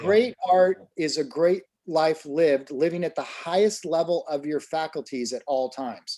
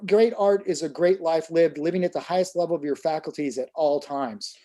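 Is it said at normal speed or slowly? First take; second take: slowly; normal speed. First: It is said more slowly and deliberately. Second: It is said at a normal, quicker pace.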